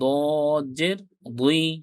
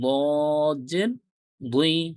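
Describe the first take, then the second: The two takes are said the same way.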